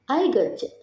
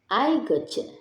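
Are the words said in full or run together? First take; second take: run together; run together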